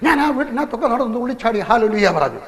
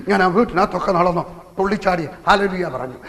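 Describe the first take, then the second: First: Higher, jubilant retelling of the dancing; joyful excitement. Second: Said in the usual way. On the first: A narrator's reading. Preacher reliving his joy after the healing, jubilant and higher. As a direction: lift the voice as if leaping for joy.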